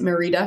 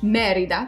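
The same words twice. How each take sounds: First: The stress is on a later syllable. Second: The stress is on the first syllable. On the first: The speaker calls it wrong. "people don't pronounce it Merida, because that's not correct" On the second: The speaker calls it right. "you get an emphasis on the first syllable"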